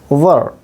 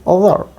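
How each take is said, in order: Both takes have the same delivery.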